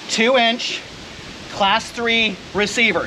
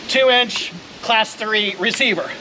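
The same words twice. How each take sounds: First: Slow drilled "Two inch class three receiver"; teacher drilling. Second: Slow, deliberate "Two inch class three receiver"; teacher drilling. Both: Shown as a demonstration. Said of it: "Say it with me, class".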